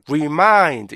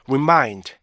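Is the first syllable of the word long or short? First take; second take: long; short. First: The first syllable is drawn out long. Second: The first syllable is short and unstressed. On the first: The speaker calls it wrong. "우리나라 사람들은 맨 앞에 게 가장 길어져요. 그래서 어떻게 돼요? remind 이렇게 되는 거죠" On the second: The speaker calls it right. "remind, remind 이렇게 발음하셔야 되는데"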